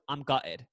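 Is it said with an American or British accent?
British. It is said in a British accent.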